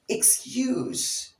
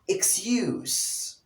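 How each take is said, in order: Both takes have the same delivery.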